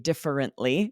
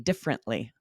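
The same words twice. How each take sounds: First: The word is said with four syllables. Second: The word is said with three syllables. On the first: "won't always say" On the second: "usually make that three syllables"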